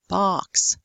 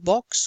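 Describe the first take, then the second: First: The vowel is a long open ah. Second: The vowel is a short rounded O. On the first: "they'd say box" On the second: "So instead of saying box"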